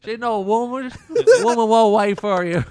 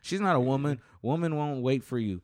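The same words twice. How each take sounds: First: Laughing, much louder and higher hillbilly echo. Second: Twang it like a riled hillbilly. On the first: Retold or imitated. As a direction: copy the hillbilly line while cracking up. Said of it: "like a hillbilly". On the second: Acted. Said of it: "Why do you say that like a hillbilly?".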